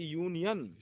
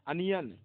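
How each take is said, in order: First: The word starts with a 'yoo' sound. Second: The word starts with an 'uh' sound. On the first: The speaker calls it right. "यू पढ़ा जाएगा" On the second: The speaker calls it wrong. "इसको ए नहीं पढ़ेंगे"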